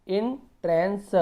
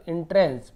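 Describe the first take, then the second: First: entrance split as "in - trens", slow and higher; broken into parts. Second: Said in the usual way. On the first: Shown as a demonstration. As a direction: pause after "in" in entrance. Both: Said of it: "ऐसे तोड़ तोड़ के पढ़ना है".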